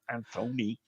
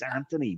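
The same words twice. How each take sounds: First: The name is said the American way. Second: The name is said the non-American way. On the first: The speaker calls it wrong. "not Anthony. ... Americans mispronounce it" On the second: The speaker calls it right. "He's Anthony"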